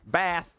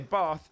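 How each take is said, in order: First: It is said in a northern English accent. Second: It is said in a non-northern accent. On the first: "If I go north and someone says bath" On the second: "and I say bath"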